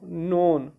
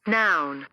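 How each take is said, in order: First: The vowel sounds like the one in 'on'. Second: The vowel sounds like the one in 'out'. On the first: The speaker calls it wrong. "इसको क्या पढ़ते हैं लोग" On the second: The speaker calls it right. "इसको नॉन नहीं पढ़ते, इसको क्या पढ़ते हैं"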